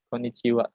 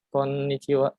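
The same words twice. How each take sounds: First: The middle N sound is short, not held. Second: The middle N sound is pressed and held long. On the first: The speaker calls it wrong. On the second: The speaker calls it right. "Jadi dibacanya ditekan"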